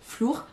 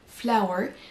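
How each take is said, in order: First: The vowel sounds like 'oo'. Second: The vowel sounds like 'ow'. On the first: The speaker calls it wrong. "si vous le prononcez flour" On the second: The speaker calls it right. "ce mot-ci qui se prononce flower"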